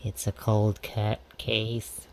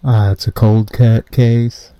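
First: Soft, close to the phone; quiet. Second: Loud muffled voice; through a wall. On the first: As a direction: drop the voice down. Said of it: "If I talk like this". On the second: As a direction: speak like behind a wall. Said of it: "You, you sound muffled". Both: Acted.

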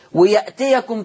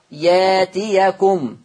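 First: "ويأتيكم" with a glottal stop after the ya; written hamza form. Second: "ياتيكم" with a long slow aa and no glottal stop; hamza turned to alif. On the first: Teacher citing the word before its Warsh reading, hamza pronounced. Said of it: "ويأتيكم تقرأ ياتيكم". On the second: Teacher showing how Warsh reads it, long open vowel. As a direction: stretch the first aa of "ياتيكم" smoothly. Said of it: "تقرأ ياتيكم". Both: Shown as a demonstration.

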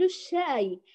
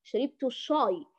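First: الشاي with thin front aa; unthickened shaay for الشاي; light correct shin. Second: الشاي darkened to shaw-y; backed, emphatic aa in الشاي; heavy wrong shin. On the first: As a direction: model a light, clean الشاي. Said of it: "نقول الشاي". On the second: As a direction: thicken the vowel of الشاي as a mistake. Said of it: "ولا في لهجة نقول الشاي". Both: Shown as a demonstration.

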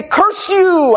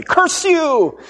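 First: Hammed-up villain cry, high and loud; old-timey curse. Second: Hammed-up melodrama cry, high and loud; old-timey curse. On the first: Back in the day someone might shout this, hammed-up loud. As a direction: shake a fist and bellow it like an old melodrama villain. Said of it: "they might even say". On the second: Retelling the old-timey curse, hammed-up loud shout. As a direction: bellow it like a silent-film villain. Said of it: "This is very old-timey".

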